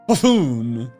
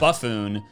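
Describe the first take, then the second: First: The second syllable gets a lot of emphasis. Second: The second syllable gets only ordinary emphasis. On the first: "putting a lot of emphasis on the second syllable" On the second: "Instead of"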